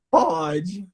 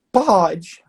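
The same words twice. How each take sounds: First: A hint of a sulky boy, rising at the end; grudging, wary yes; imitating grudging kid. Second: A hint of a reluctant boy, higher; half-hearted yes from a shy kid. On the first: Coach mimics the boy agreeing grudgingly. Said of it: "Tipo assim, "Não vou gostar, mas pode". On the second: Coach retells the boy's reluctant yes. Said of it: "Daquele jeito".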